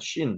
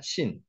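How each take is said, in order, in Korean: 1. sh 소리로 시작합니다. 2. s 소리로 시작합니다. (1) "점이 오른쪽에 있으면은 쉰 발음이 납니다" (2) "점이 왼쪽에 있으면 신 발음이 납니다"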